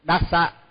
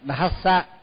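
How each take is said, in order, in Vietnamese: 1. Phụ âm đầu không có âm h bật hơi. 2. Phụ âm đầu là âm d rung kèm hơi. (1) "mình nó thường hay đọc là sambut dhassa, tức là mất chữ hát" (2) "phải đọc đúng là phải đọc thassa"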